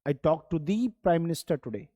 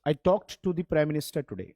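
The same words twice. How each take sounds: First: The word the is stressed. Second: The word the is not stressed.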